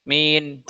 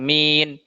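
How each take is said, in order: The two takes are said the same way.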